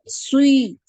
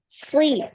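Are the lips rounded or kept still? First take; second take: rounded; still. First: The lips are rounded and push forward. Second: The lips stay still; the sound comes from the tongue. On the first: The speaker calls it wrong. "Nah ini dari dari bibir" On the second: The speaker calls it right. "Jangan gerak, lidah, bibirnya nggak gerak ya"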